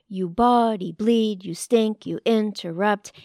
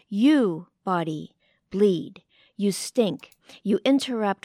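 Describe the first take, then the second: First: 'You body' runs together without a pause. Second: There is a pause between 'you' and 'body'.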